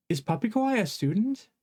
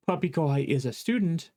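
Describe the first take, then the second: First: "Is Puppy Kohai a student?" pitched higher, rising at the end; question rise. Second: "Puppy Kohai is a student" with a falling tune; statement fall. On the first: Teacher shows the English question, rising pitch. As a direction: ask it, lifting the voice up. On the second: Teacher shows the plain statement, falling tune. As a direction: state it flatly, falling at the end. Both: Shown as a demonstration. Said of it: "change both the word order and the intonation".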